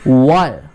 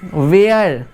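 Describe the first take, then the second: First: The vowel is a short 'ur' sound. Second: The vowel glides like the 'air' sound. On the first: The speaker calls it right. "वर होगा" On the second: The speaker calls it wrong. "बहुत से लोग बोलते हैं वेयर"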